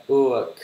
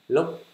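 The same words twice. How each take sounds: First: "look" louder, falling, with a released final k; English pronunciation. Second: "Lúc" short, with a high rising Vietnamese tone; Vietnamese-style reading. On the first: Teacher models the English word after sounding it out, "look" with clear final k. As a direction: say "look" with a fuller vowel and clear k. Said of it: "Là, là". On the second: Teacher tries out the Vietnamese reading, "Lúc" short and high. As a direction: say "Lúc" cut short and pitched up. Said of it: "Được, đọc là lúc nha". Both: Shown as a demonstration.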